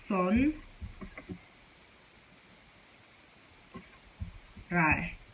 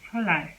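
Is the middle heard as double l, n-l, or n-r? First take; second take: n-r; double l. First: An n sound is followed by an r. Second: The n becomes l, giving a double l. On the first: The speaker calls it wrong. "some people might say" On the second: The speaker calls it right. "You're supposed to pronounce it as this"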